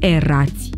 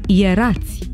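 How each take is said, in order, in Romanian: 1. Cuvântul începe cu un „e” simplu. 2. Cuvântul începe cu sunetul „ye”. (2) "pronunțăm"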